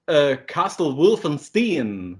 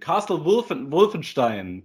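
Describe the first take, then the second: First: The 'st' in stein sounds like plain 'st'. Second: The 'st' in stein sounds like 'sht'. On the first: "But American people say" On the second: "in German"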